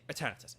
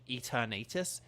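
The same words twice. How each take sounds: First: Said in the usual way. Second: Eternatus said e-ter-NAY-tus; other pronunciation. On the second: Shown as a demonstration. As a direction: stretch the middle of Eternatus into NAY. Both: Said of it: "some people have the pronunciation Eternatus".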